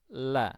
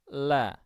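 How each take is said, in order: First: The L is thin, with a relaxed open throat. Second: The same.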